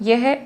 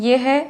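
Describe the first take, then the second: The two takes are said the same way.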